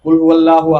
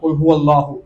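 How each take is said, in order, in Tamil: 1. அல்லாஹ்வில் உள்ள L ஒலி லேசானது, மெல்லியது. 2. அல்லாஹ்வில் உள்ள L ஒலி கனமானது, முழுமையானது. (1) "வாசிக்காம" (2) "லாம தஃப்கீம் பண்ணி ஓதணும், கனமாக ஓத வேண்டும்"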